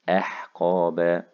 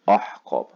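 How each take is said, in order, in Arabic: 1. الهمزة في البداية تُنطق خفيفة ورقيقة. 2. الهمزة في البداية تُنطق ثقيلة ومفخمة. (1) "الهمزة دائما مرققة" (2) "الهمزة فيهم طلعت مني غلط، طلعت مفخمة"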